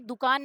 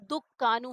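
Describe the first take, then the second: First: The k sound is short, single. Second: The k sound is doubled and held. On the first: The speaker calls it wrong. "ये दुकान नहीं है" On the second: The speaker calls it right. "ये दुक्कानू है"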